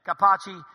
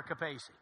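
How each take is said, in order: First: Capacci said as "kuh-PAH-chee"; correct surname pronunciation. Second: Capacci said as "kuh-PAY-see"; mispronounced surname. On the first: Showing his surname's right form, Capacci said "kuh-PAH-chee". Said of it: "it's never Capacci". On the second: Correcting people on his surname, Capacci wrongly said "kuh-PAY-see". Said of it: "But it's never Capacci". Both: Shown as a demonstration.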